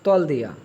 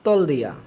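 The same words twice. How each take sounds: First: The first words merge into one short syllable. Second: The first words merge into one short syllable.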